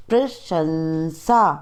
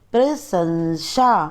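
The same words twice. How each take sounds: First: प्रशंसा as "prashansa", sh then s; correct pronunciation. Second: प्रशंसा with s and sh swapped, "prasansha"; wrong pronunciation. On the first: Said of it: "शुद्ध उच्चारण अलग तरीके से होता है". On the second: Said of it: "अशुद्ध उच्चारण अलग तरीके से होता है". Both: Shown as a demonstration.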